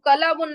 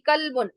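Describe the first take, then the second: First: A vowel is heard between the l and b. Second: The l runs straight into the b. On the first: The speaker calls it wrong. "कलाबुन जब बोल रहे हैं तो लाम पर हम जब जबर दे रहे हैं" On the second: The speaker calls it right. "कलबुन में लाम पे जजम है, और जजम वाला ही सही है"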